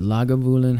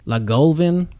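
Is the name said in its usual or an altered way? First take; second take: usual; altered. First: The name is said in its usual form. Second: The name is said in an odd, altered form.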